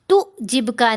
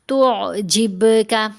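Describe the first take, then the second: First: The consonant after 'tu' is plain, not from the throat. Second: The consonant after 'tu' comes deep from the throat. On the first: The speaker calls it wrong. "तुअजिबका नहीं पढ़ना" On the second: The speaker calls it right. "आइन की आवाज़ गले से लहर की तरह होकर आएगी"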